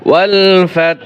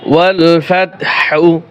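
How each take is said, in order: First: The last word ends with a breathy h, no vowel. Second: The last word ends with a short u vowel. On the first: The recitation stops at this word. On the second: The recitation continues without stopping.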